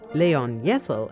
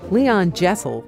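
First: The name is pronounced the German way. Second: The name is pronounced the English way.

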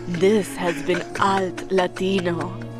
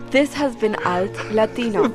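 First: It is said in a polished announcer voice. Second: It is said in her ordinary speaking voice.

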